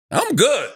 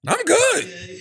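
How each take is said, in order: First: A quick, chuckling "I'm good" that waves it away; laughing it off, like nothing is wrong; laughing brush-off. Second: "I'm good" pitched way up, a squeaky, unconvincing denial; high mock denial. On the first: Retold or imitated. Brushing off the stripper warning. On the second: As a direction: insist you're fine in a strained high voice. Repeats the brush-off, sitting beside girl.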